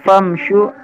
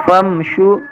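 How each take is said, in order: The two takes are said the same way.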